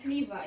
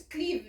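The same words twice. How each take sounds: First: "Cleaver" as two syllables, "klee-vuh"; "Cleaver" with an added "vuh" at the end; English pronunciation. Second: "Cleave" as one syllable, "kleev"; "Cleave" with no final syllable; German pronunciation. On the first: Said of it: "and Cleaver in English". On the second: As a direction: say "Cleave" the German way, long ee ending on v. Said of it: "it's Cleave in German". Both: Shown as a demonstration.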